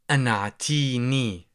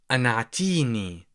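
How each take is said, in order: Both takes have the same delivery.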